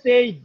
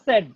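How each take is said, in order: First: The vowel is a long gliding 'ay' sound. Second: The vowel is a short plain 'eh' sound.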